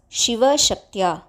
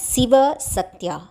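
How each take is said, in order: First: The words begin with a soft sh sound. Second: The words begin with a plain s sound. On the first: The speaker calls it right. "the words Shiva Shaktya" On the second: The speaker calls it wrong. "The words are not to be pronounced as Siva Satya"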